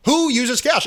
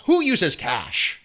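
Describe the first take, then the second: First: Higher, sharper who uses cash; higher, mocking who uses cash; incredulous. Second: Drawn-out slow question; slow, unimpressed who uses cash; slow disbelief. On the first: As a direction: pop it up in disbelief. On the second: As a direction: drag it out, baffled. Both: Shown as a demonstration.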